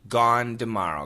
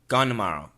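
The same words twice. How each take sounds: First: Tomorrow begins with a D sound. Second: Tomorrow begins with an N sound. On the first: "It's just a D"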